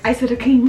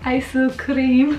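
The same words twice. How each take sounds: First: It is said quickly as two smooth English words. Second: It is said slowly, split into separate syllables. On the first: The speaker calls it wrong. "You can't be like" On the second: The speaker calls it right. "You gotta be like ... you really have to break it up"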